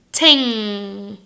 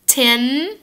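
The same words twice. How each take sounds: First: "ting." ringing on a back nasal NG. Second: "Tin," with a front N. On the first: Teacher contrasting ting with tin, nasal NG. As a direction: let "ting." hum through the nose. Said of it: "and ting?". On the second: Teacher contrasting tin with ting, front N. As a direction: close "Tin," on the tongue tip. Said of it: "What about tin". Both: Shown as a demonstration.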